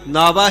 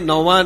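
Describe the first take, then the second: First: The first vowel is pronounced 'aa', as naava. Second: The first vowel is pronounced 'au', as nauvaan. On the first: The speaker calls it right. "ਨਾਵਾ ਹੀ ਇਸ ਦਾ ਉਚਾਰਨ ਹੈ" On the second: The speaker calls it wrong. "ਕਈ ਨੌਵਾਂ ਪੜ੍ਹਦੇ ਨੇ, ਨੌਵਾਂ ਨਹੀਂ"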